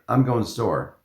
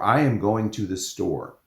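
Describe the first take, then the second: First: The words are shortened and blended together. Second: Each word is said fully and separately. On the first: "things are shortened" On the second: "I might say"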